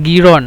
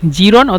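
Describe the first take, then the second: First: The word begins with a hard g sound. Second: The word begins with a soft j sound. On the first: This is how Egyptians say it. "মিশরীয়রা গিরন বলে" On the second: This is the standard form of the word. "জিরনকে মিশরীয়রা গিরন বলে"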